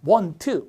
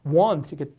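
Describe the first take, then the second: First: Want with a full clear T, Korean textbook style; wrong pronunciation. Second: Want said with the T almost dropped, like "wan"; weak T after N. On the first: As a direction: say want stiffly, every sound spelled out. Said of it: "사실은 want가 아니라 ... want 이렇게". (want를 티 발음 살려 또박또박) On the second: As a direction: let the T in want fade after the N. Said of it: "N 다음에 T 발음이 약해서". (want의 티 발음을 약하게 흘려서) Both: Shown as a demonstration.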